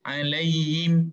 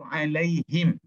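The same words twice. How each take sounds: First: The h sound is weak and nearly hidden. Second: The h sound is clearly and fully pronounced. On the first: The speaker calls it wrong. "Jangan huruf ha itu menjadi khafa" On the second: The speaker calls it right. "Mesti diizharkan sebutan huruf ha"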